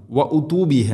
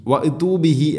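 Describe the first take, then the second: First: വ ഉതു ബിഹി said with a clear u vowel; വ ഉതു ബിഹി with the proper damma on the hamza; വ ഉതു ബിഹി pronounced correctly; correct reading. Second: വ ഉതു ബിഹി said as "wa itu" with an i vowel; വ ഉതു ബിഹി with the wrong vowel, imitating most people; വ ഉതു ബിഹി mispronounced as wa itu; common mistake. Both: Shown as a demonstration. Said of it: "അധികം ആളുകളും പറയും".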